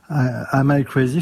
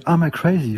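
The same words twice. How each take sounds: First: Said in the usual way. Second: A light American accent on Am I crazy, crazy with an American r. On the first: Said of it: "je peux très bien le dire ... avec l'accent américain". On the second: Shown as a demonstration. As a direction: singer demos an English-speaking accent for the host, lightly American. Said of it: "avec l'accent américain ou l'anglais".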